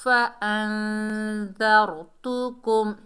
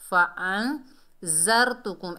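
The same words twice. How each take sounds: First: फ़अंज़रतुकुम read the right way; correct reading. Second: फ़अंज़रतुकुम with ज़ sounded like a hard ज़ा; फ़अंज़रतुकुम read the wrong way. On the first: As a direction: recite it slowly and correctly. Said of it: "ता के ऊपर पेश बगैर खींचे पढ़ेंगे". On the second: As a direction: demonstrate the mistake slowly. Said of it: "ऐसे करके नहीं पढ़ना". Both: Shown as a demonstration.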